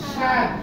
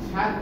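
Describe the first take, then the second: First: The first sound is said with a forceful push. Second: The first sound is said plainly, without extra force. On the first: The speaker calls it right. "শ্বাসাঘাত দিতে হবে" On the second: The speaker calls it wrong. "সাত নয়"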